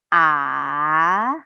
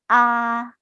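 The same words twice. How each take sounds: First: The pitch dips down then rises, lengthened. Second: The pitch stays flat and level. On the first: "seperti naik gunung, di mana huruf vokalnya itu diperpanjang" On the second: "seperti kita se bicara seperti biasanya"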